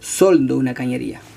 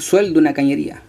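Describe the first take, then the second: First: The stressed vowel is a plain o. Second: The stressed vowel is the diphthong ue. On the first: The speaker calls it wrong. "no soldo una cañería" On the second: The speaker calls it right. "Yo sueldo una cañería"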